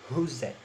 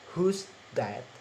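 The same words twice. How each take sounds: First: The th sound merges into the preceding z. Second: The th sound of that is said clearly. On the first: "becomes a who's that" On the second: "in normal speech is who's that"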